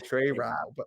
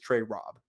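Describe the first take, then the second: First: The surname is not said like 'Rob'. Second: The surname is said just like 'Rob'. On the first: This is how another person says the name. The speaker calls it wrong. "That's how he says it" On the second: This is the name's proper pronunciation. The speaker calls it right. "The correct correct pronunciation is Trey Rob, like like as if it was R O B"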